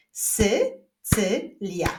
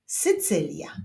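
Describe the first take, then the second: First: "Sycylia" very slowly in three separate syllables. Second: Said in the usual way. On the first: Shown as a demonstration. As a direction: clap out "Sycylia" with gaps between syllables. ("Sycylia" bardzo powoli, sylabami) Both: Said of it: "Wyklaszczmy sylaby w nazwie".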